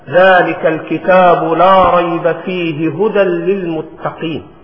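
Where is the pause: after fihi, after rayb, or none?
none. The verse is said without any pause. "والسنة أنك تصل الآية"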